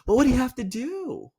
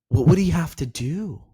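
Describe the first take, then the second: First: It ends rising, sounding curious. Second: The last word is drawn out and falls.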